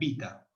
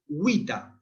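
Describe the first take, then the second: First: It begins with a b sound. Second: It begins with a rounded w sound. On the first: "igual que la B" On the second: "la vamos a pronunciar W"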